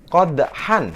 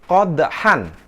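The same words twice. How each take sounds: Both takes have the same delivery.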